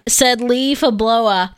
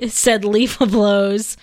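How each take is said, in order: First: Slow "Leaf blowa", two syllables in "blowa"; corrected name. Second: "Leaf blows" fumbled, ending like "blows"; mispronounced name. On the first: Shown as a demonstration. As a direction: sound out "Leaf blowa" with an open "uh" ending. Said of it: "say it correctly". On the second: Real, not acted. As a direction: stumble slowly into "Leaf blows" with a final z sound. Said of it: "Baby, say it correctly".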